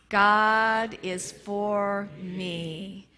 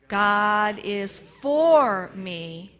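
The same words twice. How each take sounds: First: The word me is stressed. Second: The word for is stressed.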